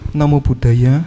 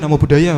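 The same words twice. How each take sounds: First: The greeting sounds humble and respectful. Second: The greeting sounds offhand and arrogant. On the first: The speaker honours the person greeted. The speaker calls it right. "dengan kerendahan hati" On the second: The speaker does not honour the person greeted. The speaker calls it wrong. "itu keterlaluan"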